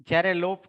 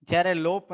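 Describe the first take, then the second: No difference in how they are said.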